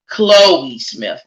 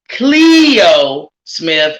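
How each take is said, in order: First: The name's first vowel sounds like 'oh'. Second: The name's first vowel sounds like 'ee'. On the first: The speaker calls it wrong. "and not Chloe Smith" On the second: The speaker calls it right. "Her name is pronounced four-year-old Cleo Smith"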